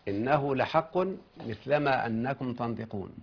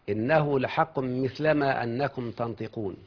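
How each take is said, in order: No difference in how they are said.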